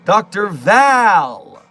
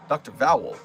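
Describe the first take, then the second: First: The name rhymes with pal. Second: The name rhymes with owl. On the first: The speaker calls it right. "It's the A in Val that is not vowel" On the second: The speaker calls it wrong. "Why did I say it like that?"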